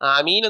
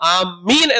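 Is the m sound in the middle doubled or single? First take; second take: single; doubled. First: The m sound is short and single. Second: The m sound is held long and doubled. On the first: It means asking God to answer the prayer. The speaker calls it right. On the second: It means we are heading toward something. The speaker calls it wrong.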